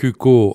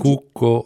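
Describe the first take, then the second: First: The name is pronounced the French way. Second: The name is pronounced the Sicilian way. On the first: "on dit Coucot en français" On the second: "on dit Coucot en sicilien"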